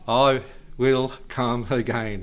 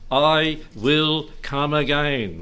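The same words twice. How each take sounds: First: Slow imitation of an American preacher; drawn-out mock-American accent. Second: Very slow, deliberate verse; slow, solemn-paced proclamation in own accent; emphatic recitation. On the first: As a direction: mimic American vowels, word by word. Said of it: "In American accent, like he did". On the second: Acted. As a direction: draw out each word with weight. Recites verse before imitating preacher.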